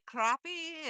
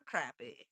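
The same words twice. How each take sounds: First: "crappie" with an open ah, as in crop; CROP-ee pronunciation. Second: "crappie" with a short a, drawn out; CRAP-ee pronunciation. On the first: Turning the fish-name joke back, "crappie" as CROP-ee. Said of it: "I say crappie". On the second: Teasing the other host, "crappie" as a slow CRAP-ee. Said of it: "and you are crappie". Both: Shown as a demonstration.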